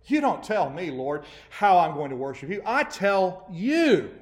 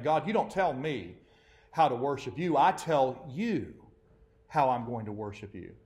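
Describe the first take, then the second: First: Defiant demand. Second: Defiant. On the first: Preacher voicing worshippers defying God, loud and defiant. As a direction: throw it back at God, daring. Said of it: "the conveying of that attitude". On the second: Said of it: "they don't say it like that". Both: Retold or imitated.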